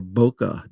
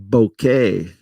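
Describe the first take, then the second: First: Bokeh said "boh-kuh", ending in a schwa. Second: Bokeh said "boh-kay", ending like "day". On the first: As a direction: say bokeh with a short final "uh". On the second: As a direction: say bokeh with a final "ay" sound. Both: Shown as a demonstration. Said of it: "how you believe it should be pronounced".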